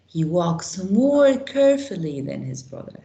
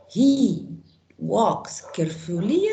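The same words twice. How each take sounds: First: Said in the usual way. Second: "carefully" with an -ier ending, rising as a question; questioned wrong form. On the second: Shown as a demonstration. Teacher testing a wrong adverb form on students, questioning "carefully". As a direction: test "carefully" doubtfully, lifting at the end.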